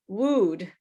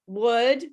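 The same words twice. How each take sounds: First: The vowel is a long oo sound. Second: The vowel is a relaxed, central sound. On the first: The speaker calls it wrong. "like the same sound in uh, food" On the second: The speaker calls it right. "Wood is a different sound"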